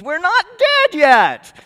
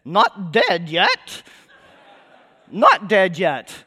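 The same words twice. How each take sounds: First: High, loud, drawn-out comic yell; mock scream. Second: Slow, drawn-out mock cry from the corpse cart; body piping up. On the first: Preacher acting out the wagon's corpses jumping out, screaming. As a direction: scream it out slowly like a whole revived wagonload. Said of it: "jumps out and screams". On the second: Preacher retelling a comedy song's plague victim, piping up slowly. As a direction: pipe up very slowly, stretching each word. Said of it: "this one body pipes up".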